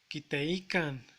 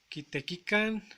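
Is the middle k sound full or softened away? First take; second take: softened; full. First: The middle k sound is softened away. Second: The middle k sound is fully pronounced. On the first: "vuelve el verbo más suave. Este habla es, es natural" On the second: "En vez de decir"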